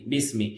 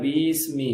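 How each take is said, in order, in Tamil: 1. முதல் உயிர் ஒலி குறுகியதாகவும் எளிமையாகவும் இருக்கிறது. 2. முதல் உயிர் ஒலி நீண்டு இழுத்து ஒலிக்கப்படுகிறது. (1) "ரொம்ப சிம்பிள்" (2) "இழுத்துடக்கூடாது"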